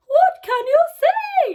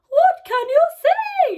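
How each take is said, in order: First: It is said in a high-pitched voice. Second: It is said in a high-pitched voice.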